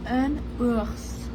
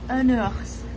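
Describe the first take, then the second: First: The two words are said slowly and separately. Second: The N runs straight into the next word.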